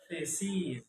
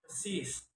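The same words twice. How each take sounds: First: Said in the usual way. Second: "thesis" with its vowel replaced; learner's mispronunciation. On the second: Shown as a demonstration. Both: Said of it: "is pronounced".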